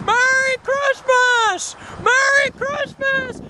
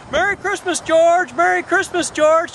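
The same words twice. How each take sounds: First: High, drawn-out joyful holler; crazy-man shouting. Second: Said in the usual way. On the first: Acted. George running down the street like a crazy man, joyful shouting. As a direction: shout it slowly to the whole street. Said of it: "running down the street like a crazy man going". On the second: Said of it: "just like it's a normal day".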